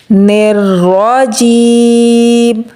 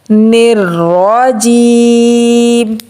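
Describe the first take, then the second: Both takes have the same delivery.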